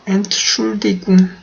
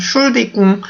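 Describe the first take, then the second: First: The word starts with the syllable 'Ent'. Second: The opening syllable 'Ent' is left out. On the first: "And should 궁 이라고 하실 수도 있고요" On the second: "엔트를 아예 없애버리고 그냥 should 궁 이런 식으로도"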